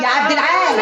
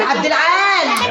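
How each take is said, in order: First: Said in the usual way. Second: Slow, stretched call to another room; long drawn call of the name. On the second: Acted. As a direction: stretch the name out to reach him. Wife calling husband again.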